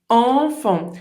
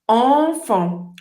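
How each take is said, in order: First: The nasal vowel has rounded lips. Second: The same.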